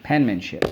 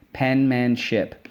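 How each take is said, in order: First: Said in the usual way. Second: "Penmanship" slowly split as pen, man, ship; full vowel in each syllable of "Penmanship". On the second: Shown as a demonstration. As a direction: chant "Penmanship" in three separate beats. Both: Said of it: "so let's go".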